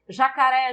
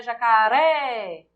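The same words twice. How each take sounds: First: Said in the usual way. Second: Slow jacaré with a long final "ré"; stress on final syllable. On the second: Shown as a demonstration. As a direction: call out jacaré, stretching the "ré". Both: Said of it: "a sílaba tônica é o ré".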